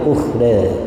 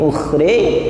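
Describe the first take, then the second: First: The final vowel sits between a and e. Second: The final vowel is tilted fully toward e. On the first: "ada yang taklil" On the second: "ada yang miring"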